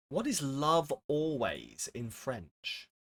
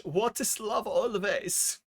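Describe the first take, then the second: First: Said in the usual way. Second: Slow, higher mock German accent; a playful German accent, drawn out and higher. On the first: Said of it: "Why did I do that". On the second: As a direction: ask it in a hammed-up German accent. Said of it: "Why did I do that in a German accent?".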